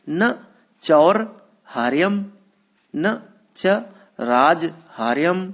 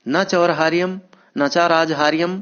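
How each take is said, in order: First: The compounds are broken into separate parts. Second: The compounds are read smoothly without breaks.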